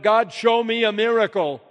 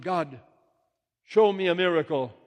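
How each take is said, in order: First: Loud, high shout to God; shouted plea. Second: High, loud call to God; shouted plea. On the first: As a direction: shout it out as a full-voiced demand. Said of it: "And then I shouted". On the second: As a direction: call it out with voice raised, then falling. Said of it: "I shouted". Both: Acted.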